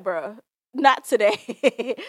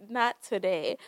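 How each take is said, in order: First: Slow, loud and flat refusal, drawn out; unbothered shutdown. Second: Said in the usual way. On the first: Pretend. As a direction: shut them down slowly and firmly, no debate. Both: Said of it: "I'd have been like".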